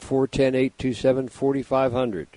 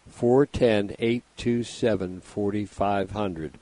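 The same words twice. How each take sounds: First: The number is said fast. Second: The number is said slowly.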